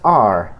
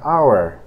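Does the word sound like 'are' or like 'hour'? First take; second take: are; hour. First: The word is reduced and sounds like 'are'. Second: The word is said in its full form, like 'hour'. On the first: This is the word inside a sentence. "cuando está conjugada ya en una oración, su pronunciación es are. Suena como el verbo to be" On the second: This is the word on its own. "la palabra our que vemos aquí, se pronuncia our"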